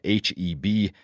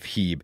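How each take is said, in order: First: Each of the three letters is said separately. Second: The letters are blended into one short syllable. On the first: The speaker calls it right. "the local way to say it is by just saying each letter individually" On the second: The speaker calls it wrong. "I pronounced the Texas grocery chain as Heeb, which was apparently wrong"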